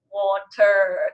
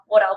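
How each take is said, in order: First: The word is said slowly. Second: The word is said quickly. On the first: The speaker calls it right. "I had to like slow it down" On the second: The speaker calls it wrong. "I was saying water, water, water, water"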